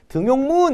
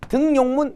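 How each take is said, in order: First: No 'n' sound is added before the second syllable. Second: An 'n' sound is added before the second syllable. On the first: The speaker calls it right. "니은이 첨가되지 않는 단어입니다" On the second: The speaker calls it wrong. "등용문 이렇게 발음되지 않죠"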